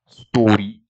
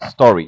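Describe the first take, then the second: First: It is said in a Scottish accent. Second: It is said in a neutral, non-Scottish accent. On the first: "She said story" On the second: "not don't say like story"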